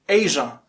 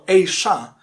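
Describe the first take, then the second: First: The middle consonant is a voiced 'zh' sound. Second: The middle consonant is a voiceless 'sh' sound. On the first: "with Z sound of pleasure" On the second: "with Sh sound of sharp"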